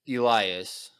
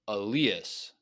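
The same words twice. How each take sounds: First: The name is pronounced the usual English way. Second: The name is pronounced a non-English way. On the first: The speaker calls it wrong. "that's I guess that must be the English way to pronounce it" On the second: The speaker calls it right. "this person says that it's Elias"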